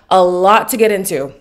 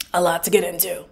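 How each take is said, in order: First: LOT hit louder, tune falling at the end; emphatic. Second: Softer and lower, as an afterthought to oneself; quiet echo. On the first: Host teasing viewers about the episode, emphatic. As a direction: punch out "A lot to get into". Emphatic first take, then echoed. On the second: Host repeating the point to viewers, quietly. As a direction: drop "A lot to get into" down low. Soft echo of the line before. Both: Real, not acted.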